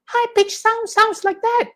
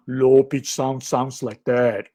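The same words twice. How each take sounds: First: Very high, squeaky-pitched demo. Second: Low, slow demo voice; low-pitched voice. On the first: Lecturer showing how high sound sounds, high-pitched. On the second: Lecturer showing how low sound sounds, low-pitched. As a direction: drop it low and draw it out. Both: Shown as a demonstration.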